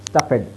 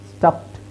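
First: The ending is said as a separate 'ed' syllable. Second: The ending is a short 't' with no extra syllable. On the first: The speaker calls it wrong. "ಸ್ಟಫೆಡ್ ಅಲ್ಲ" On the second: The speaker calls it right.

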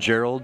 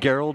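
First: The name starts with a soft j sound. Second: The name starts with a hard g sound. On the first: The speaker calls it wrong. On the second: The speaker calls it right.

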